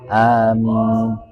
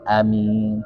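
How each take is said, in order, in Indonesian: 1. Vokal pertama panjang, ditahan dua harakat. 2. Vokal pertama pendek, tidak ditahan. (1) "dua harokat dua harokat" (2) "ada yang baca pendek"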